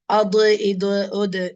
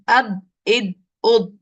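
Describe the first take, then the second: First: The final consonant ends with an echoing bounce. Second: The final consonant is held heavy without bounce. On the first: The speaker calls it wrong. "Sometimes by mistake we might pronounce a kalkala. ... That is a wrong sound" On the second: The speaker calls it right. "Hold and press your tongue upwards"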